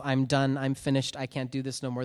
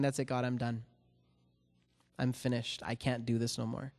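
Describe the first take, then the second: First: Said in the usual way. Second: Softer and lower, a spent surrender; defeated giving up. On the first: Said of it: "those words came out of my mouth". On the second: Retold or imitated. Worn-out man telling God he quits, soft and defeated. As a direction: let the words drop out, beaten. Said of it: "looking up at God and saying".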